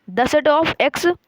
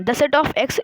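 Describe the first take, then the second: First: "The set of X" drawn out very slowly, a little higher and louder; slowly read out. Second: Said in the usual way. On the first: Shown as a demonstration. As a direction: read every word of "The set of X" slowly and clearly for the class. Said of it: "इसको बोलना है". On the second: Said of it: "ऐसे बोलना है".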